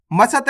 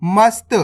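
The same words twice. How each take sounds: First: मसत with a vowel after s: ma-sat; wrong full-letter reading. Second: मस्त as one syllable, "mast"; correct half-letter reading. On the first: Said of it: "नहीं पढ़ना". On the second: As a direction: join s and t tightly in मस्त. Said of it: "मसत नहीं पढ़ना". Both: Shown as a demonstration.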